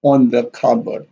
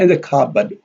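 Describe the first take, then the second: First: ON given contrastive stress before cupboard. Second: IN given contrastive stress before cupboard. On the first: Teacher shows why words are contrasted, stress on ON. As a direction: stress the word on against in. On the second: Teacher shows why words are contrasted, stress on IN. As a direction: stress the word in against on. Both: Shown as a demonstration. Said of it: "in and on here are stressed".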